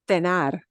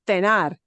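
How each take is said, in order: First: The first consonant sounds like th. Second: The first consonant sounds like th.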